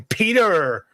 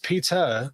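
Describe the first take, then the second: First: The final r is pronounced, American style. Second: The final r is dropped, non-American style. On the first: "Americans say Peter" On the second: "It's Peter"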